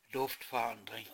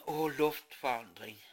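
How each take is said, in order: First: Said in the usual way. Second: Åh, luftforandring said with a pleased sigh; savouring sigh. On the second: Shown as a demonstration. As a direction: relish the change of air.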